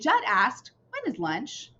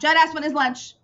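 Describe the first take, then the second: First: There is a short pause after 'asked'. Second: It runs straight on with no pause after 'asked'. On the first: The speaker calls it right. "You see how I had a little tiny pause there?" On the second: The speaker calls it wrong.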